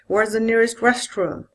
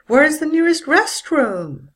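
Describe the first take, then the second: First: The voice falls from a low pitch. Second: The voice falls from a high pitch.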